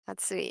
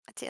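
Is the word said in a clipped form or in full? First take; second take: full; clipped. First: The word is said fully with three syllables. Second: The word is clipped quickly into two syllables. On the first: "It's atsui" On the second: "when you're saying it fast"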